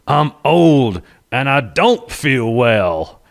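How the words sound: The line is said with a strange, unusual intonation. "It was the most amazing, weird inflection"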